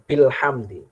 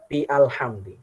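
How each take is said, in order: First: The glottal stop is dropped, words run together. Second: A glottal stop separates bi from alhamdi. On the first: The speaker calls it right. "Hamzah waslnya hilang" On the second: The speaker calls it wrong. "kan bukan kita baca"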